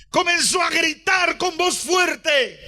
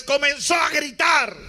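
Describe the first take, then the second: First: Rising preacher's call; raised preaching voice. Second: Said in the usual way. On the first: Shown as a demonstration. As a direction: build it up, calling out.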